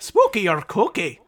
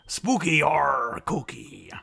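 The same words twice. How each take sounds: First: It is spoken in an Irish accent. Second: It is spoken in a pirate accent. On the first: "I can do it in Irish here" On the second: "Was that a pirate? That was a pirate"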